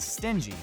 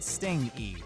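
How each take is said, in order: First: The middle sound is a soft j. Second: The middle sound is ng, as in sting. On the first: It means unwilling to spend. The speaker calls it right. "the actor meant to say stingy" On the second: It sounds like something that stings. The speaker calls it wrong. "not sting-y"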